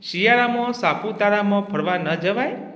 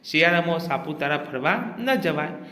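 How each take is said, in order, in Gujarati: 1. તે પ્રશ્નાર્થ સૂરમાં બોલાય છે. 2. તે સપાટ, વિધાનના સૂરમાં બોલાય છે. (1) "પ્રશ્નાર્થ વાક્ય" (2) "વિધાન વાક્ય"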